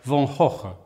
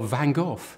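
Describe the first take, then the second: First: It is said the Dutch way. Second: It is said the English way.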